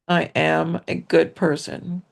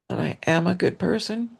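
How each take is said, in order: First: It is said at a louder volume. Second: It is said at a normal, softer volume.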